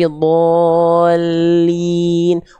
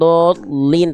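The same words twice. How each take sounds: First: The voice carries straight into the L. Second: The voice drops out before the L. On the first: The speaker calls it right. "tapi dolin" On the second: The speaker calls it wrong. "jangan hilang juga suaranya, jangan dolin"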